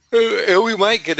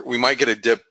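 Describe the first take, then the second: First: Talking through a real yawn, pitched way up; stretched, high voice as a yawn takes over. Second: Said in the usual way. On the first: Real, not acted. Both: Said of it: "I'm sorry, I'm yawning".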